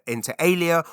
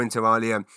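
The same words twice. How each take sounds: First: "alia" said AY-lee-uh; alternative pronunciation. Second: "alia" said AH-lee-uh; alternative pronunciation. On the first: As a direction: say "alia" with a long AY, as in ale. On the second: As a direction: open AH at the start of "alia". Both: Shown as a demonstration. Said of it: "It might be pronounced inter al".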